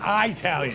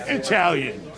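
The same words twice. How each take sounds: First: It is said with a hillbilly pronunciation. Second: It is said with a standard pronunciation. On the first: The speaker calls it wrong. "not Italian. What a hillbilly" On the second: The speaker calls it right. "The word is Italian"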